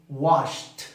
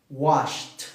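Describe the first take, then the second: Both takes have the same delivery.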